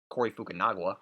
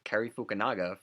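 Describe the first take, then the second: First: The first name sounds like Corey. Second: The first name sounds like Cary. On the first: The speaker calls it wrong. "Corey Fukunaga, I believe I called him forever" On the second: The speaker calls it right. "I mispronounced Cary Fukunaga"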